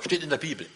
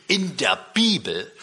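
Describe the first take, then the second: First: Said in the usual way. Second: Slow, stunned question; disbelieving repeat of the words; incredulous echo. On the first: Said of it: "Wo er meinte". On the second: Retold or imitated. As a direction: visitor echoing the answer in disbelief. Visitor astonished at the answer.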